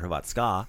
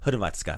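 First: The stress falls on a later syllable. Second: The stress falls on the first syllable. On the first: The speaker calls it wrong. "not Hrvatska or Hrvatska" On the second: The speaker calls it right. "So accent the first syllable. Like usual, like Hrvatska"

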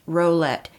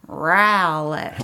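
First: The first syllable does not sound like owl. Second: The first syllable sounds like owl. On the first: The speaker calls it wrong. "It is not pronounced Rowlett" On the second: The speaker calls it right. "You have to say it with a growl"

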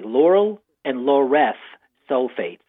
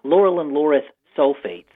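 First: The phrase is said slowly. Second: The phrase is said quickly. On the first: The speaker calls it right. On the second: The speaker calls it wrong.

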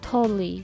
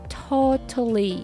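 First: The middle t is softened into a voiced flap. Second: The middle t is pronounced crisply and clearly. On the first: "totally っていう感じでこうちょっと濁る" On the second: "真ん中のt をしっかりtotally っていう感じで発音する"

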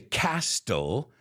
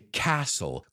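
First: The T sound is pronounced in the word. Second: The T sound is left silent in the word. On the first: The speaker calls it wrong. "I don't say castle" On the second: The speaker calls it right. "I say castle"

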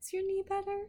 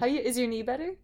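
First: The question sounds warm and caring. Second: The question sounds blunt and offhand. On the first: The speaker calls it right. "Should I say it caringly?" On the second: The speaker calls it wrong. "That's a bit insulting"

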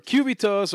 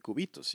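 First: It is said with an English accent. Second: It is said with a Spanish accent.

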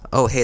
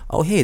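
First: The voice sounds thin and tinny. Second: The voice sounds clear and full. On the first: The speaker calls it wrong. "that sounds a little more tinny" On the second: The speaker calls it right. "this is where it sounds best"

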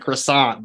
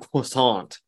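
First: The word has an ordinary English pronunciation. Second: The word has a French-style pronunciation. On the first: The pretension is being mocked. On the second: The speaker is showing off sophistication.

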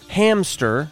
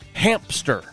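First: The word has no p sound after the m. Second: The word has a p sound after the m. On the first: The speaker calls it right. "there's no P in hamster? It's hamster" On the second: The speaker calls it wrong. "not hamster"

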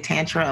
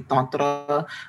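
First: It is said with an American Midwestern pronunciation. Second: It is said imitating a Sanskrit speaker's pronunciation. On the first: "I'm from the Midwest, so I tend to say tantra a lot" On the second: "when you listen to someone who speaks Sanskrit, they say tantra"

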